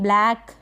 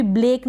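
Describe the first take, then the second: First: ब्लैक with an open "ae" vowel; correct vowel demo. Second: ब्लेक with a long "ay" vowel; mispronunciation demo. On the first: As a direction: say ब्लैक to rhyme with "back". (ब्लैक में ऐ की मात्रा) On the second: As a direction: say ब्लेक to rhyme with "lake". (ब्लेक में ए की मात्रा) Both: Shown as a demonstration. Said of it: "इसको भी ब्लेक ना पढ़ें".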